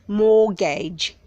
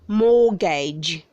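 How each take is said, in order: First: The T sound is silent. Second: The T sound is silent.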